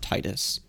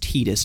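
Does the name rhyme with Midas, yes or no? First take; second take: yes; no. First: The name rhymes with Midas. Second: The name does not rhyme with Midas. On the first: This is the pronunciation the speakers prefer. The speaker calls it wrong. "not Titus. I like Titus better, though... it reminds me of like Midas" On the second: This is the officially confirmed pronunciation. The speaker calls it right. "confirmed that it's pronounced Titus"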